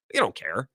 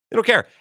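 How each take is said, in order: First: Said in the usual way. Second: Higher and louder, stress on "care"; emphatic repeat. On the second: Real, not acted. Host drives the point home to listeners, loud and high. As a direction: hammer the word "care" home, raised.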